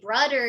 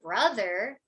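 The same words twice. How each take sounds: First: The th sound is replaced by another consonant. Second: The th sound is pronounced as a true th.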